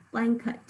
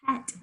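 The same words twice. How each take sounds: First: "Blanket" with an unstressed uh before the t; schwa in second syllable. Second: "Blanket" with a clear short e in "ket"; spelling pronunciation. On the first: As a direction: reduce the end of "Blanket" to "kut". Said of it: "Do you hear the schwa there?". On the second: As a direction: sound out the e of "Blanket". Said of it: "is how we're gonna spell it". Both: Shown as a demonstration.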